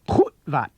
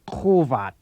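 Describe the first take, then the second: First: The sound cuts off abruptly mid-word. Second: The sound flows smoothly without a mid-word cutoff. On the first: The speaker calls it right. "The correct pronunciation is Hutvat" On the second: The speaker calls it wrong. "not Khovat"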